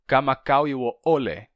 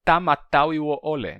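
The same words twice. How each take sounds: First: "Kamakau" with k sounds, ka-ma-KAU; Hawaiian K variant. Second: "Tamatau" with t sounds, ta-ma-TAU; Hawaiian T variant. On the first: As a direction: say "Kamakau" with both consonants as k. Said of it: "se você vai pronunciar". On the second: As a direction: say "Tamatau" with t in place of each k. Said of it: "você poderia dizer também". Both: Shown as a demonstration.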